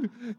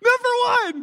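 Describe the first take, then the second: First: Said in the usual way. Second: Much higher and louder, crowing number one; triumphant shout. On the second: Real, not acted. Pastor crowing to church about Canada's hockey, triumphant shout. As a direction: shout it like a hockey fan's victory cry.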